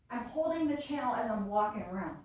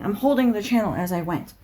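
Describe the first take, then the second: First: "I'm holding the channel" said from across the room, faint and distant; far from the mic. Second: Said in the usual way. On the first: Shown as a demonstration. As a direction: keep talking while out of range of the mic. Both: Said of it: "demonstrating doing such".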